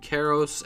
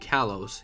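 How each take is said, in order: First: The middle consonant is an R sound. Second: The middle consonant is an L sound. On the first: This follows the Japanese pronunciation. "if it's going by the Japanese pronunciation, I guess it would be Karos" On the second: This follows the English pronunciation. "and if it's English, then it would be Kalos"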